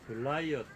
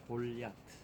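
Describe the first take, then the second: First: The name sounds like guh-lie-uht, with a glide. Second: The name sounds like gol-yat, two syllables. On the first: "영어로 건너가서 글라이어트 이렇게 기록되고 발음이 되고" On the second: "본래 히브리적인 발음으로 이제 부르자면 골야트"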